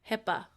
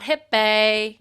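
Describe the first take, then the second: First: The final vowel is an 'uh' sound. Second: The final vowel is an 'ee' sound. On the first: The speaker calls it right. "Remember your uhs" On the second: The speaker calls it wrong. "It's not hippie"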